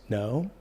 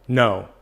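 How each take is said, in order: First: The no sounds soft, weak and hesitant. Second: The no sounds loud, strong and firm. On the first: The refusal is uncertain and could be negotiated. "where you're kind of wishy-washy" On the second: The refusal is final and pushes the other person back. "that's really like no, I'm not going to do this"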